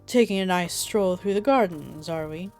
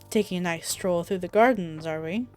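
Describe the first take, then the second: First: It is said in a put-on Emperor voice. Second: It is said in the speaker's own voice.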